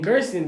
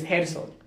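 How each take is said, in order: First: The name is said with an English pronunciation. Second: The name is said with a Spanish pronunciation. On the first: The speaker calls it wrong. "Gerson isn't even the actual pronunciation of my name" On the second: The speaker calls it right. "It's Gerson"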